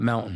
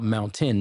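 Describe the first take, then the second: First: The t is swallowed and the word is clipped. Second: Every syllable and the t are fully pronounced. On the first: The speaker calls it wrong. "not mountain" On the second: The speaker calls it right. "you must pronounce every single syllable"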